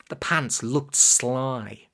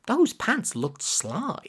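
First: Said in the usual way. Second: Those lifted high, the rest slow and deliberate; slow, emphatic restatement with Those pitched up; stress on Those. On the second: A narrator's reading. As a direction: lean on Those and spell out the verdict slowly. Conceding it after denying it's possible.

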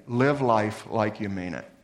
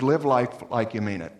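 First: Slower repeat with "live" weighted; slower echo. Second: Stated plainly, "live" stressed; first urging, straight; plain exhortation. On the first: Paul urging the Corinthians, slow emphatic echo. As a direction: sink into it, slower. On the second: Paul urging the Corinthians, plain statement. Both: Shown as a demonstration. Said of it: "he says".

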